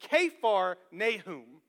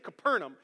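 First: The name is said as two words. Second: The name is said as one word. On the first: The speaker calls it right. "it's actually Kephar Nahum" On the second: The speaker calls it wrong. "I used to say Capernaum"

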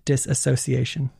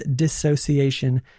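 First: An extra syllable is heard after 'dis'. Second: No extra syllable is heard after 'dis'. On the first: The speaker calls it wrong. "not disassociation" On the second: The speaker calls it right. "It is dissociation"

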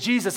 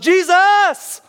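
First: The name is said at a moderate volume. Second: The name is shouted loudly and desperately. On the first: The cry was only moderately urgent. The speaker calls it wrong. "I don't believe it was like a medium" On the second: The cry was desperate and urgent. The speaker calls it right. "He's here and he yells"

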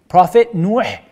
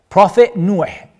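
Both takes have the same delivery.

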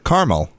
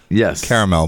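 First: It is said with two syllables. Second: It is said with three syllables. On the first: "they forget the second A" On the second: "it is spelled caramel"

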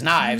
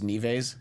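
First: The name is said with one syllable. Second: The name is said with two syllables. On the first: The speaker calls it right. "She just wasn't reading it as Knives" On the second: The speaker calls it wrong. "who thought her name was Nieves"

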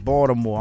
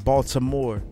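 First: It is said with the local Baltimore pronunciation. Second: It is said with a common outsider pronunciation. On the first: This is how people from the city say it. The speaker calls it right. "And I said that correctly" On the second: This is how people from elsewhere say it. The speaker calls it wrong. "I don't say Baltimore"

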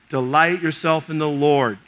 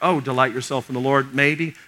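First: It is said as a firm command. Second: It is said as a hesitant, questioning suggestion.

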